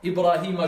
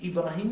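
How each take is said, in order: First: The name ends with a short a vowel. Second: The name ends with a short u vowel. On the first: Ibrahim is the one being tested. The speaker calls it right. "je lui mets une fatha" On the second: Ibrahim is the one doing the testing. The speaker calls it wrong. "je lui mets une damma"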